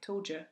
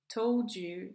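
First: The d and y merge into a j sound. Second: The d and y sounds stay separate.

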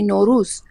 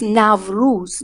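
First: The first vowel is a plain single vowel, like 'o'. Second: The first vowel is a gliding diphthong, like 'au'. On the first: This is the current pronunciation in Iran. "We say Nowruz. So we simplified it" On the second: This is the older pronunciation. "It's Nowruz. It used to be"

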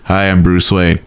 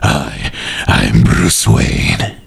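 First: It is said in a Bruce Wayne voice. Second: It is said in a Batman voice.

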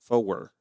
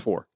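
First: The word is drawn out into three syllables. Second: The word is said as one short syllable. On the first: This is a strong Southern accent. "she's the only one I know that had three syllables for the number four" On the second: There is little Southern accent. "For me, it was always four"

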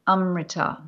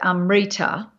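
First: The stress is on the first syllable. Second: The stress is on the second syllable. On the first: "See how I'm putting the stress on the first one?" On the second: "we put the stress on the second last syllable of a word. So we would say amrita"

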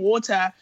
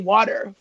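First: The middle t is a crisp t sound. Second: The middle t is a soft d-like sound. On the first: This is how the speaker normally says it. "It's like saying water" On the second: This is how Americans say it. "you have to say water for Americans to understand"

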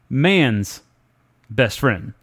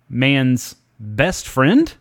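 First: The voice falls at the end like a statement. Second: The voice rises at the end like a question.

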